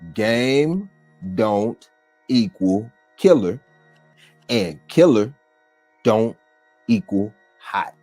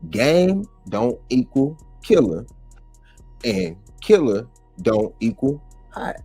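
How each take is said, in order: First: It is said very slowly. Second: It is said at a normal speed.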